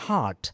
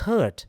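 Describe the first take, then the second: First: The vowel is an open 'ah' sound. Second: The vowel sounds like the one in 'hurt'. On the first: The speaker calls it right. "It should be ഹാർട്ട്, an open mouth" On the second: The speaker calls it wrong. "ഹേർട്ട് എന്ന് പറഞ്ഞാൽ മുറിവ്"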